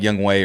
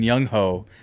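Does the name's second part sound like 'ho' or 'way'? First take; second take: way; ho. First: The second part is said as 'way'. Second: The second part is said as 'ho'. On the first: The speaker calls it right. "but it's like Young Wei or something like that" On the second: The speaker calls it wrong. "that's not even how you pronounce it"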